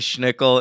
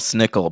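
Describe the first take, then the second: First: The name begins with an sh sound. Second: The name begins with a plain s sound. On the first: This is the speaker's habitual way of saying it. "I like to pronounce it with the extra sh" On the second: This is the actual form of the name. "It's actually Bell Snickle"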